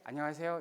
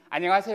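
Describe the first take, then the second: First: It is said plainly, without a smile. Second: It is said with a broad, toothy smile.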